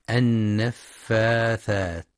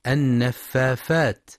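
First: النفاثات slow with a clear th; correct th sound. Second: النفافات with f instead of th; children's mistake. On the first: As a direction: stretch النفاثات, lisp the th clearly. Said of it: "لنطقها الصحيح بالثاء". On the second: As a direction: say النفافات with an f sound. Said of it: "يبدلون الثاء فاء". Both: Shown as a demonstration.

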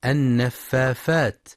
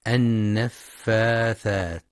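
First: النفافات said an-naffafat, f in place of th; slow demo of the error, f-f in النفافات; mistaken fa for tha. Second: النفاثات said slowly with a clear th; an-naffaathaat, very slow, for النفاثات; correct tha. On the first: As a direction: replace the th with f: النفافات. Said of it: "يبدلون الثاء فاء". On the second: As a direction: draw out النفاثات, tongue-tip th before -at. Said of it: "لنطقها الصحيح بالثاء". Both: Shown as a demonstration.

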